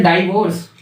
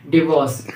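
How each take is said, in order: First: डाइवोर्स said with a long "ai" in the first syllable, dy-vorce; डाइवोर्स, first syllable like "dye"; wrong pronunciation. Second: डिवोर्स with a short "di" in the first syllable, di-vorce; डिवोर्स, short "i" and not "dye"; correct pronunciation. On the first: Teacher showing students the common wrong way: डाइवोर्स with "dye" at the start. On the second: Teacher giving students the right form: डिवोर्स with a short "di". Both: Shown as a demonstration. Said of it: "डाइवोर्स नहीं होता".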